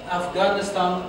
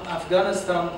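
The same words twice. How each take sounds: The two takes are said the same way.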